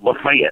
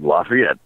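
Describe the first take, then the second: First: The name is said the local North Georgia way. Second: The name is said the usual French-derived way. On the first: This is how the local town says it. "They call it Lafayette" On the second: This is how most places say the name. "most places you go... it's like Lafayette"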